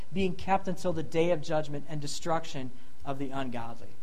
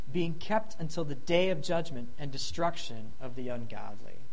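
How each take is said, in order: Both takes have the same delivery.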